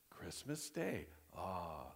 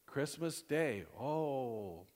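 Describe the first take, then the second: First: Hushed, soft "Christmas Day", then a low sighed "ah"; softly marvelling, ending on a contented low ah; good-news awe. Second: Mock-pitying "Christmas Day", then a lower, drawn-out "oh"; put-on dismay with a long falling oh; bad-news sympathy. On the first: Acted. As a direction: savour the happy news softly. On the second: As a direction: commiserate over the awful news. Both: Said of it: "either for good or bad".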